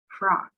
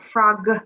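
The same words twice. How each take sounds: First: The final g is a small, light sound. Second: The final g is strong and exaggerated. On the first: The speaker calls it right. "We're making a little sound at the end" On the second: The speaker calls it wrong. "not frog"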